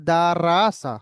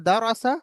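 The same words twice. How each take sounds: First: রাসা with a thin spread র, falling end; wrong light র. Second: রসা with a rounded full র and rising end; correct heavy র. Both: Shown as a demonstration. Teacher contrasting right and wrong readings for students. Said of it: "দুটো পড়া পড়লাম".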